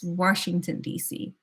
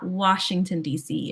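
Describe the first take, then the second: First: "Washington" with an R slipped in; regional "Warshington". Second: Said in the usual way. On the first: Shown as a demonstration. Correcting to Maryland speech, Washington with an added R. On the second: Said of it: "It's not".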